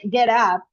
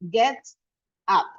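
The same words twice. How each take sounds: First: The two words run together without a break. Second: The two words are said with a break between. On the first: The speaker calls it right. "When we say get up" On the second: The speaker calls it wrong. "we don't say get up. We don't separate the words"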